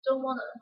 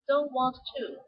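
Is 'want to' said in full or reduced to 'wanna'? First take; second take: reduced; full. First: The two words blend into one word, 'wanna'. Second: Both words 'want' and 'to' are said separately.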